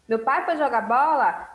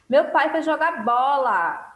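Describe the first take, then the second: First: It is said as a question. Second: It is said as a surprised exclamation.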